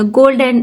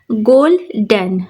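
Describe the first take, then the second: First: Said in the usual way. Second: golden slowly split in two, stress on the डन; stress on second syllable. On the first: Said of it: "एक word है". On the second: Shown as a demonstration. Teacher showing students syllable stress, golden with weight on डन. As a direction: say golden as गोल, then a stressed डन. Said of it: "गोल पे stress नहीं है और डन पे stress".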